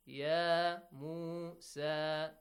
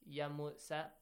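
First: The long vowels are held out long. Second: The long vowels are cut short. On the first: The speaker calls it right. "make sure you prolong a longer sound" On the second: The speaker calls it wrong. "long vowels are pronounced as short vowels"

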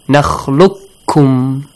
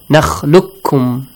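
First: The q and k are said separately. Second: The q merges into a doubled k.

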